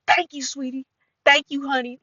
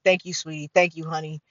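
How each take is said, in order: First: Put-on higher, thick West Side Cincinnati accent. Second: Said in the usual way. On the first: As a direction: imitate her hard Cincinnati accent. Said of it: "West Side of Cincinnati accent". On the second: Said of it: "when older women are like".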